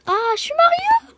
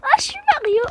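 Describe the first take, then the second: First: High, loud squeaky Mario cry; voix de Mario. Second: High, loud Mario cheer; Mario again. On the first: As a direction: shout it like the plumber hero himself. (voix aiguë et forte de Mario) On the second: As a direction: belt it out as Mario, full of glee. (Mario crié très aigu) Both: Pretend. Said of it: "j'adore ce, euh, personnage-là".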